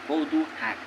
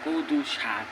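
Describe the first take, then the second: First: The second word begins with an h sound. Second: The second word begins with an sh sound. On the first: This is how the locals say it. "কিন্তু হাক কদু হাক" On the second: This is the standard form, not the local one. "কদু শাক কই না"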